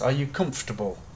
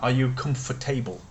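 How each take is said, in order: First: Comfortable is said reduced, with its syllables run together. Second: Comfortable is said with every letter sounded out. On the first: "I'm saying it in an English way, how it should be said" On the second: "that's an exaggeration"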